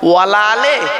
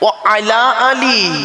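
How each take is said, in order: First: Wa and ala merge into one word, wala. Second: Wa and ala are said as separate words. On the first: It sounds like a negation. The speaker calls it wrong. "দরুদ শরীফের মধ্যে আমরা একটা ভুল বলি" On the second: It means 'and upon the family'. The speaker calls it right. "আছেটা কি?"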